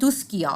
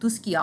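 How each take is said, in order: First: The middle is said as 'sk' with a 'k'. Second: The same.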